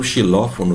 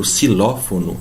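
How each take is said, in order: First: "xilófono" starting with an SH sound. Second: "xilófono" starting with a hissed S; initial X as S. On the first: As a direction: say "xilófono" as "shilófono". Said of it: "eu não falo xilófono". ("xilófono" com X chiado, em português) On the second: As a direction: say "xilófono" as "silófono". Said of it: "um som de S". ("xilófono" com X soando S, à espanhola) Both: Shown as a demonstration.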